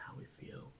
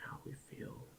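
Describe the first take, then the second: No difference in how they are said.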